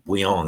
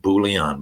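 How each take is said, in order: First: The name is said with a French pronunciation. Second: The name is said with an anglicized pronunciation. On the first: This is how French speakers say it. "but Bouillon, they, they pronounce it" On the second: This is how people commonly called him. "people used to call him Bouillon"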